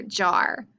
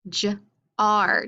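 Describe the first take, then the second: First: Said in the usual way. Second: JAR split into "juh" and "ar"; sounded out. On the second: Shown as a demonstration. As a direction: say J-R as two separate sounds, j then ar. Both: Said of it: "Any words that start with".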